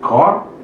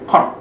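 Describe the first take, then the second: First: The first consonant is soft and plain. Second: The first consonant is hard and tense. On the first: The speaker calls it wrong. "bukan chord, bukan seperti giat biasa" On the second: The speaker calls it right. "tetapi lebih keras dari giat biasa"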